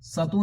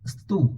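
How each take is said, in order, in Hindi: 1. एक छोटा स्वर s और t को अलग करता है। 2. s और t एक गुच्छा बनाते हैं। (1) "सतु नहीं बोलना है"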